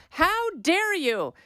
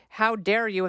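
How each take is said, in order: First: High, slow, hammed-up "How dare you?"; mocking outrage. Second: Said in the usual way. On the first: Host mocking a party talking point with exaggerated outrage. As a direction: stretch "How dare you?" way up in mock indignation. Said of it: "And they go". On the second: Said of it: "talking point from the D N C".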